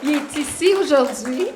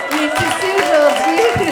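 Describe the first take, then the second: First: Loud and high, rising at the end; excited announcement. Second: Much louder and higher, soaring at the end; jubilant shout. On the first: Pointing out the healed man to the church, excited. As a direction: announce it with joy. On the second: Repeating to the congregation that he is here, shouting with joy. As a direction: shout it out in triumph. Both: Real, not acted.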